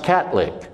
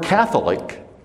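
First: The th is said as t. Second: The th is said as th.

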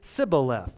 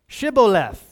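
First: The word begins with an 's' sound. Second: The word begins with an 'sh' sound. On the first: This marks the speaker as an outsider. The speaker calls it wrong. "the Ephraimites pronounced it Sibboleth" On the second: This is the password needed to cross the river. The speaker calls it right. "you had to say what?"

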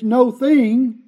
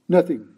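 First: It is said slowly as two words. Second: It is said fast as one word.

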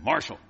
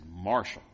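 First: The name is said much more loudly. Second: The name is said fairly softly.

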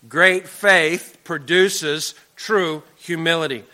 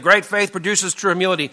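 First: It is said slowly. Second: It is said at normal speed.

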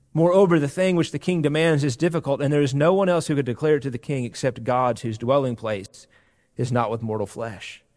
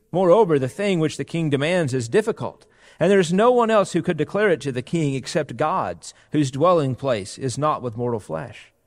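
Both takes have the same delivery.

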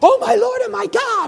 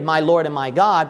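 First: It is said as a shocked exclamation. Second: It is said calmly, as a plain statement.

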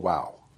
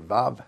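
First: The word begins with a w sound. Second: The word begins with a v sound. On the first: "I was taught by an English speaker, so I pronounce it Wow" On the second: "if you learned Hebrew from a German, V-A-V"

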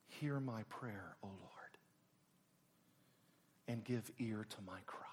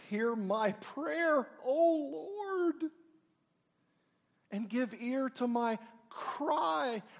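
First: It is said softly and quietly. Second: It is cried out loudly.

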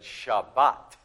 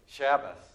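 First: The word ends with a hard t sound. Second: The word ends with a soft s sound. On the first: "with a hard T sound at the end" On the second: "they've softened almost everything"

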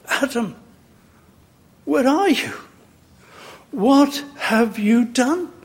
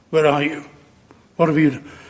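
First: It is said in a tender, grieving tone. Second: It is said in a stern, reproachful tone.

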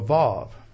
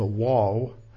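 First: The name begins with a V sound. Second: The name begins with a W sound. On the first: This is how it is said in Israel. The speaker calls it right. "they all pronounce the Vav like a V" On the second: This is how scholars in the speaker's country say it. The speaker calls it wrong. "pronounce it like as a Wav"

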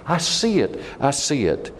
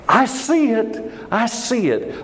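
First: It is said faintly with little energy. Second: It is said loudly with strong energy.

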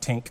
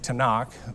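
First: It is one short syllable with an i vowel. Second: It has three syllables ending in a throaty kh. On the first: The speaker calls it wrong. "it's not Tink" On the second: The speaker calls it right. "they say Tanakh"

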